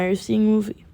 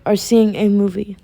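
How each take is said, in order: First: The phrase is said too quickly. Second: The phrase is said at a slower pace. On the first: The speaker calls it wrong. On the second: The speaker calls it right.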